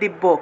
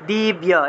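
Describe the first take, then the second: First: The word ends with a 'bbo' sound. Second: The word ends with a 'bya' sound. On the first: This is the Bengali pronunciation. "বাংলায় বললে" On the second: This is the Sanskrit pronunciation. "এটা উচ্চারণ হবে দিব্যা"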